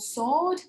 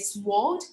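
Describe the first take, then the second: First: The w sound is left silent. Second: The w sound is pronounced aloud. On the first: The speaker calls it right. "we have some silent letters in English" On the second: The speaker calls it wrong. "students cannot pronounce them correctly ... like this"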